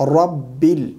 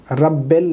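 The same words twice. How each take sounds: First: رب ال as "rabbil", with a clear i; corrected vowel. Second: رب ال as "rabbel", an e in the second syllable; wrong vowel. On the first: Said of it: "رب ال نہیں". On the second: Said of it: "نہیں". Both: Shown as a demonstration.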